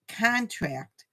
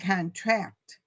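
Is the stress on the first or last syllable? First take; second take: first; last. First: The stress is on the first syllable. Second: The stress is on the last syllable. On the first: It is a noun meaning an agreement. "The former is the noun" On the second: It is a verb meaning to tighten. "whereas the latter is a verb"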